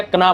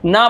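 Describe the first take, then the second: First: कना with the K sounded; गलत उच्चारण. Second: ना with no k before it; सही उच्चारण. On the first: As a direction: misread KN as कना. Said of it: "गलत, ना बस पढ़ना है आपको". (कना, क की आवाज़ के साथ) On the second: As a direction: read KN simply as ना. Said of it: "ना बस पढ़ना है आपको". (ना, क को चुप रखकर) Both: Shown as a demonstration.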